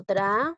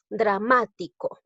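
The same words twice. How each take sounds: First: "dra-ma-ti-co" in four pieces with long pauses; syllable by syllable. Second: Said in the usual way. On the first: Shown as a demonstration. Teacher counting syllables for the class, syllable by syllable. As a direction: sound out "dra-ma-ti-co" one isolated syllable at a time. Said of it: "A ver, digo". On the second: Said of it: "si digo la palabra".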